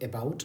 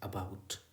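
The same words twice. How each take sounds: First: The first vowel is a full 'ay' sound. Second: The first vowel is a weak 'uh' sound. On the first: The speaker calls it wrong. "इसको अबाउट नहीं पढ़ते हैं, ए नहीं पढ़ते हैं" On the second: The speaker calls it right. "बल्कि अ पढ़ते हैं, श्वा आएगा यहाँ पर"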